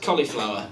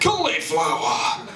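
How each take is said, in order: First: It is said in an ordinary, flat voice. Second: It is said in a dramatic put-on voice. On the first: The thing sounds dull and unappealing. The speaker calls it wrong. "That's shit" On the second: The thing sounds exciting and desirable. The speaker calls it right. "I want to eat cauliflowers till I bleed after hearing that"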